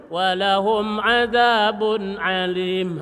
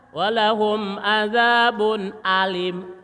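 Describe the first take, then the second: First: Slow "Walahum azabun alim" with the hamzah swallowed like ain; mock the mistake, throaty a; wrong hamzah. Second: Slow sung "walahum azabun alim" with a clear hamzah; sung, correct recitation. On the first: Teacher imitating a student reading hamzah as ain. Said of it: "Atau hamzah dibaca ain". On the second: Sung, teacher reciting the verse correctly to students. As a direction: chant it, hamzah pushed out. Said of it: "Kalau hamzah". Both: Shown as a demonstration.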